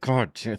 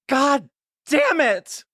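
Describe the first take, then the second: First: It is said through clenched teeth. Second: It is said with an open mouth.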